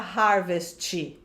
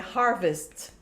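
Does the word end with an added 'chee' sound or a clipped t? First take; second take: added chee; clipped t. First: The word ends with an added 'tch' vowel sound. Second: The final t is clipped with no added vowel. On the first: The speaker calls it wrong. "Você não vai falar harvest, tch, né?" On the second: The speaker calls it right. "não tem esse tch, é harvest. Corta"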